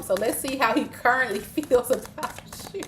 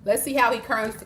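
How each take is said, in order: First: Laughing. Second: Said in the usual way. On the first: Real, not acted. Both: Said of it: "'cause you said you do like him".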